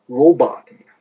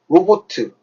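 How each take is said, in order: First: It ends on t, stressed on the first syllable. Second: An extra vowel follows the final t. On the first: The speaker calls it right. "액션트가 앞에 찍혀요" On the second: The speaker calls it wrong. "이거 발음 어떻게 해야 되죠?"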